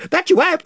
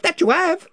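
First: Much higher, louder eager chorus; enthusiastic roar. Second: The crowd repeats its praise; enthusiastic echo. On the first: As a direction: cheer him on wholeheartedly. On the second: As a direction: echo the cheer, still keen. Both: A narrator's reading. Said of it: "roared the other voices with great enthusiasm".

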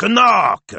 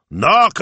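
First: High loud knock falling away; second "knock!" called loud and falling. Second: High loud knock with a rising end; first "Knock" called loud and rising. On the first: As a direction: bring the second "knock" down with a firm fall. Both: Acted. Knocking and calling at window.

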